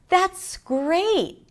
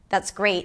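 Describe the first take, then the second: First: The voice is high with a wide pitch range. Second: The voice is flat with little pitch change. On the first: The speaker is happy about it. "my voice was slightly higher. The pitch difference was bigger" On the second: The speaker does not care. "for the indifferent, ... Not a lot of pitch changes there"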